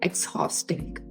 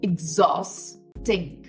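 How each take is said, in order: First: It begins with an 'eks' sound then 'haw'. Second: It begins with an 'ig' sound then 'zaw'. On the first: The speaker calls it wrong. "students ... pronounce ... exhausting" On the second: The speaker calls it right. "H A U S is zos"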